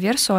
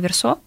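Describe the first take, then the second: First: The stress is on the first syllable. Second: The stress is on the last syllable. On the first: This is the earlier, English-style stress. "там не версо" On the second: This is the French-style stress used in the dub. "а версо. ... это как бы французское произношение"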